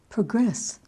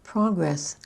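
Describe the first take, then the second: First: "Progress" as pro-GRESS, the verb; stress on second syllable. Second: "Progress" as PRO-gress, the noun; stress on first syllable. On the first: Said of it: "the second syllable of the verb". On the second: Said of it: "accent the first syllable of the noun". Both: Shown as a demonstration.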